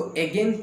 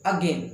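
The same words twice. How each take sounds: First: Again said as egen, first vowel like e; again with a clear e at the start; wrong again. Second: Again said as əgen with a weak uh start; correct again. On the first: Teacher shows the common wrong again, egen. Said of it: "कुछ लोग इसको again पढ़ते हैं". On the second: Teacher models the correct again, əgen. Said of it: "इसका सही उच्चारण होगा". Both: Shown as a demonstration.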